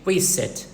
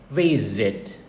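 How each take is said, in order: First: The middle consonant is a hissing s sound. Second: The middle consonant is a buzzing z sound. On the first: The speaker calls it wrong. "Don't say visit" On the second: The speaker calls it right. "but visit"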